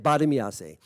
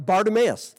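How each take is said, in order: First: Bartimease said bar-tuh-mee-ah-say, every vowel spoken. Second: Bartimaeus said the English way, BAR-tuh-mus, stress on the first syllable; English pronunciation. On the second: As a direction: say Bartimaeus as the English name, short and clipped. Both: Shown as a demonstration. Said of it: "That's how they say it".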